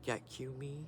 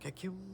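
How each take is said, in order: First: The name is said slowly, split into parts. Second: The name is said fast, run together. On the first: The speaker calls it wrong. "I was saying it all weird" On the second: The speaker calls it right. "it was like fast"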